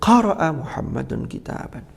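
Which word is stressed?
qara'a. The stress falls on the first word, qara'a. It answers what Muhammad did. "apa yang dilakukan Muhammad, maka tekanannya"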